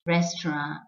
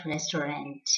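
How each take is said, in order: First: Restaurant in two syllables, RES-tron; French-like ending on Restaurant; correct pronunciation. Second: Restaurant in three syllables, RES-tuh-runt; wrong pronunciation. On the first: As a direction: say Restaurant with a silent final t. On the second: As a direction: sound the final t of restaurant. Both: Shown as a demonstration. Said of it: "and not restaurant".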